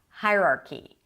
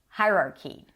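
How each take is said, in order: First: The stress falls on the first syllable. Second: The stress falls on the first syllable.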